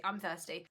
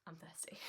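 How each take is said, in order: First: Said in the usual way. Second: A breathy aside whisper. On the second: Shown as a demonstration. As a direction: whisper it under your breath. Plain vs whispered repeat.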